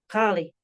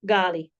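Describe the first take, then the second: First: The word begins with a gargled throat sound. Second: The word begins with a plain hard g. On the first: The speaker calls it right. "like a soft G, almost as if you were gargling water" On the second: The speaker calls it wrong. "or simply gala, gali"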